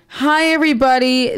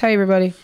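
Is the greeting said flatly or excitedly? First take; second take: excitedly; flatly. First: It is said excitedly, with more energy. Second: It is said flatly, with little energy.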